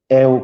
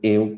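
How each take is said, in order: First: The diphthong starts with an open E vowel. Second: The diphthong starts with a closed E vowel. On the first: "eu com E aberto" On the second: "eu com E fechado"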